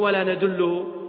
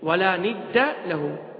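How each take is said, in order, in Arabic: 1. تُنطق الكلمتان الأخيرتان متصلتين ككلمة واحدة. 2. تُنطق الكلمتان الأخيرتان منفصلتين بوضوح. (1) "مو" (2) "والأصل أنها تكون بعيدة"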